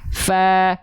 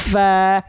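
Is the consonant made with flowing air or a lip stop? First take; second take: flowing air; flowing air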